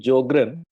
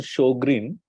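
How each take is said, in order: First: The name begins with a 'j' sound. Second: The name begins with an 'sh' sound. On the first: The speaker calls it wrong. "a very common mistake is to pronounce it as a Jogren" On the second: The speaker calls it right. "It is correct pronunciation Sjogren. S J uh, in uh, German is pronounced uh, as S H"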